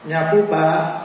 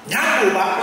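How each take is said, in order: First: The reply sounds soft and polite. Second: The reply sounds curt and snappy. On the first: The sweeper is answering with refined politeness. "ini kelihatannya orang Solo" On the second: The sweeper is brushing off the question rudely. "ini kok nyolot"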